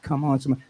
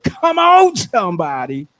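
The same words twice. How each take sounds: First: Said in the usual way. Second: Rally the crowd with a big, high "come on"; rousing holler. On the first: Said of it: "I said, not come on". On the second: Shown as a demonstration. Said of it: "I said, not come on, somebody, but".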